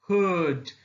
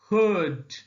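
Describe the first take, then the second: No difference in how they are said.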